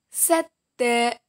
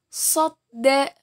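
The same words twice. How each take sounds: First: Sadda with a light, fronted "sed"; letter sin. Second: Sadda with a heavy "sod" first syllable; letter sad. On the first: Teacher contrasts two letters for students, sadda with light "sa". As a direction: say sadda with thin S, open vowel. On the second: Teacher contrasts two letters for students, Sadda with heavy "so". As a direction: say Sadda as "sodda", emphatic S. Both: Shown as a demonstration. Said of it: "Perbandingan antara huruf so dan huruf sa".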